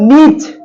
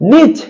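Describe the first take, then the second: First: The word ends on a bare consonant. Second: The word ends on a bare consonant.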